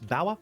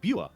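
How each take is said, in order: First: The name is said like 'Bauer', rhyming with power. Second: The name is said like 'Buer', without 'ow'. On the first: This is how Americans might say it. "Maybe Americans might pronounce this Bauer" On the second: This is how the speaker reads it. "when I read it, it sounds like Buer"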